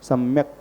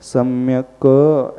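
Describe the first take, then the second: First: The final k is said without a vowel. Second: The final k is said with a vowel. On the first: "स्वर मिलाकर के उच्चारण न करें, सम्यक पढ़ें" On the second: "पूरा का हो जाएगा तो सम्यक ऐसा पढ़ा जाएगा"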